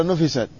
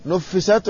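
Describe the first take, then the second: First: "نفست" with a single short f, nufisat. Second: "نفست" with a doubled f, nuffisat. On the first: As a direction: keep the f undoubled in "نفست". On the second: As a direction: lengthen the f in "نفست". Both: Shown as a demonstration. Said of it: "لكن لا تشدد الفاء".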